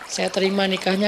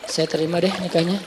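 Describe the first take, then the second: First: It is said gladly and pleasantly. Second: It is said sulkily and reluctantly.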